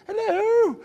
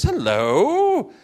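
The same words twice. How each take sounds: First: A very high, squeaky second hello; even higher greeting. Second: A high, sing-song hello; cheery apostle greeting. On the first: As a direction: push the greeting way up, playfully. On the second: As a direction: greet the church like a jolly apostle. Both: Retold or imitated. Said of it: "He says".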